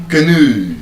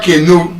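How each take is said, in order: First: Canoe as kuh-NOO, long oo; weak first vowel, stressed end on canoe; canoe, reduced start and falling NOO; correct pronunciation. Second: Canoe as KAY-no; canoe, front-stressed with ay; wrong pronunciation. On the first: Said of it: "The correct pronunciation of that word". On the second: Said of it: "It's not canoe". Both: Shown as a demonstration.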